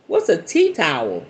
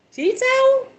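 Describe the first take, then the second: First: Said in the usual way. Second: Much higher, comic squeak; mock puzzled echo. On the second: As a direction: echo it way up high, baffled. Mocking repeat of odd word.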